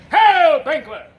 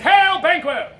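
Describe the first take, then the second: First: Huge first word, falling away on the name; shouted hail. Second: High, loud stage greeting; loud hailing. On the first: Messenger hails Banquo, shouted first word. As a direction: blast HAIL, then drop on Banquo. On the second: Messenger hails Banquo, loud call. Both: Acted.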